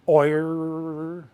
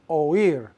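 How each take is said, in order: First: The vowels glide together into one syllable. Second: The vowels are split into two syllables. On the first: The word is spelled without an accent mark. The speaker calls it wrong. "If oír did not have an accent mark, it would be pronounced like this" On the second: The accent mark breaks up the diphthong. The speaker calls it right. "That accent mark is on the I to make it two syllables"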